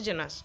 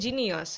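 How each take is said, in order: First: The word has two syllables. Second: The word has three syllables. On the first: "জিনিয়াস থেকে বলছে জেনাস" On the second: "এটা হলো আসলে জিনিয়াস"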